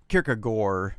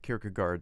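First: It is said the Danish way, ending in 'or'. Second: It is said the English way, ending in 'gard'. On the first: "like O-R on the end" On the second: "if you and I want to pronounce it Kierkegaard, that's okay too"

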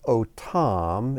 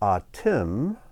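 First: The word begins with an o vowel. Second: The word begins with an a vowel. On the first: It means them. "If we pronounce it otam, it means them" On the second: It means you, plural. "But if we pronounce the word atim, it means you, plural"

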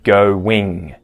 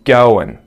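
First: The word ends with a full ing sound. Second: The word ends with a reduced n sound. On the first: "instead of going" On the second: "we actually get a schwa sound and then an N sound instead of the ing"

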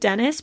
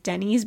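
First: The name ends with a short 'iss' sound. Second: The name ends with a long 'eez' sound. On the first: This is the presumed adult pronunciation. "as an adult I now assume is pronounced Dennis" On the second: This is the childhood reading of the spelling. "I always pronounced as a kid as Denny's because it's a Y"

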